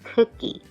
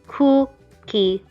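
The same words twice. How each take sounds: First: The word flows smoothly as one unit. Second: Each syllable is sounded out as a block. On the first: "English words are much more fluid" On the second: "But Korean"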